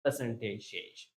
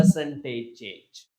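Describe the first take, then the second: First: Softer "percentage" pressed before change; quiet firm "percentage" with a falling end; stress on percentage. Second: Slow, weighted "Percentage" in Percentage change; teacher insisting on Percentage; stress on percentage. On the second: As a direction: hit "Percentage" and let change fall. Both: Shown as a demonstration. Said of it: "Not just change".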